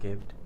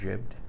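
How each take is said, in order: First: The word begins with a hard G. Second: The word begins with a J sound. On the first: "Pyrocynical pronounce it gibbed, which sounds American" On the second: "Civi pronounce it jibbed, which sounds British"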